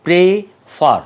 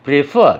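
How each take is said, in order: First: প্রেফার broken into two separate beats, pre and far; split into syllables. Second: Said in the usual way. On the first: Shown as a demonstration. Teacher showing the two syllables, প্রেফার said in two parts. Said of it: "দুটোভাবে উচ্চারণ করে". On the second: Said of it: "একসাথে বলছি".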